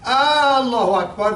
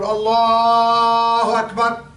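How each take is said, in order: First: The opening vowel is drawn out as 'aa'. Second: The opening vowel is short and plain. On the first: It turns the phrase into 'if God is great'. The speaker calls it wrong. "when you say ah, that means if Allah is a great" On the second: It states that God is greatest. The speaker calls it right. "it's okay"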